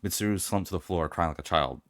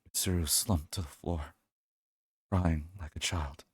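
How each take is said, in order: First: It is read flatly, without feeling. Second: It is said with strong emotion.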